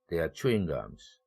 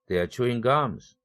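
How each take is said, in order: First: The main stress falls on chewing. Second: The main stress falls on gums. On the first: They are pieces of gum. "chewing이라는 내용어에 일 강세를 주고 뒤에 있는 내용어는 삼 강세로 완전히 낮춰줍니다" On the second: They are in the act of chewing gum. "껌이 일 강세를 가져갔고 chewing은 그래서 같은 내용어지만 이 동사는 이 강세로 낮춰줬습니다"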